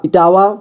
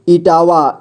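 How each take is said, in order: First: Said in the usual way. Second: Etawah drawn out as इ-टा-वा; syllable by syllable. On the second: Shown as a demonstration. Teacher showing beginners how to read Etawah, syllable by syllable. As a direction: sound out Etawah in three steps. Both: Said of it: "जोड़ जोड़ करके ही पढ़ना होगा".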